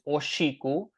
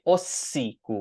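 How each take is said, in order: First: The word is said with an sh sound. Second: The word is said with a plain s sound.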